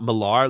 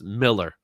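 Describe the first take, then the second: First: The last syllable sounds like 'ar'. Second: The last syllable sounds like 'er'. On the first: The speaker calls it wrong. "It's not Millar like a lot of people think it is" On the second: The speaker calls it right. "it's pronounced Miller"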